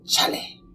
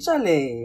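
First: The name sounds reproachful and disappointed. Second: The name sounds warm and friendly. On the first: The other person has done something wrong. "sometimes it will be, oh, Charlie. Like, what have you done?" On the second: It is a friendly greeting. "other times you'll be like, hey, Charlie"

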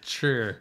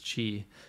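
First: The word is read as in Mandarin pinyin. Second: The word is read as it would be in English. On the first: This is how the spelling reads in Chinese. "So C-H-I is chur" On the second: This is how the name is meant to be said. "it's supposed to be pronounced as Chi"

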